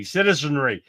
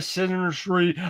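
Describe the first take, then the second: First: "citizenry" said carefully, all four syllables in place; corrected pronunciation. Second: "citizenry" garbled, syllables tripping over each other; stumbled pronunciation. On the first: Host retrying that damn thing, carefully pronounced "citizenry". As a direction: get "citizenry" out cleanly, syllable by syllable. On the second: Host failing to say that damn thing, tongue-tied "citizenry". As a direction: trip over "citizenry", slurring its middle syllables. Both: Real, not acted. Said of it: "I can't even never say that damn thing".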